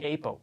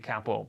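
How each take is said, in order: First: It is said the way Americans say it. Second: It is said in the speaker's own local way.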